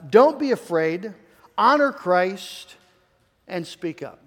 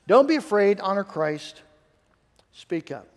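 First: Each command spaced and slowed; first slow reading of the three points; slow deliberate list. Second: Second, punchier run through the three points; emphatic repeat. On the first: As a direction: lay out don't be afraid, honor Christ, speak up one by one. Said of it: "sets out three commands". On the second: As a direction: press the first command, let the rest drop. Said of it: "repeats the three commands". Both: Shown as a demonstration.

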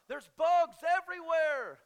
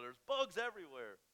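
First: Bugs yelled high, loud and slow; panicky yell. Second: Said in the usual way. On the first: Retold or imitated. Wife shrieks about the bugs in panic, high loud. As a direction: shriek There's bugs everywhere. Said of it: "she's like". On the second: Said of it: "You're paranoid".

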